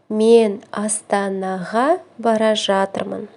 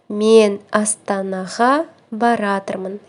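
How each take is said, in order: First: The verb is said in full: bara zhatyrmyn. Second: The verb is shortened to one word: baratyrmyn.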